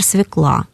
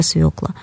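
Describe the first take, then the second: First: "свекла" said as svikLA; stress on last syllable. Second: "свёкла" said as SVYOkla; stress on first syllable. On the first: Expert citing the inadmissible form, "свекла" stressed on the final а. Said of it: "недопустимыми". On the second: Expert giving the only standard form, "свёкла" stressed on ё. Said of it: "нормативная только свёкла". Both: Shown as a demonstration.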